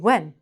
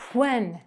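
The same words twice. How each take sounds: First: It starts directly with a w sound. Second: It starts with a breathy h sound. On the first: The speaker calls it right. "Take out the H. Just say the W" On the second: The speaker calls it wrong. "We can't say that"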